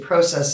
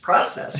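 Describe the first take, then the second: First: It is said with a Canadian pronunciation. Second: It is said with an American pronunciation. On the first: "I'm Canadian and I always would say process" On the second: "It's process. You have to shift it"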